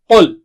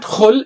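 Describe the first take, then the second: First: It starts with a deep throat q sound. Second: It starts with a rough, scraping kh sound. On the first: The speaker calls it right. "it is qul" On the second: The speaker calls it wrong. "It's not khul"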